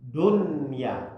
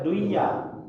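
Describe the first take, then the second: First: The n sound is pronounced clearly before y. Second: The n sound is merged into the y. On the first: The speaker calls it right. "harus dibaca izhar, harus dibaca jelas" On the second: The speaker calls it wrong. "tidak boleh kita baca duya"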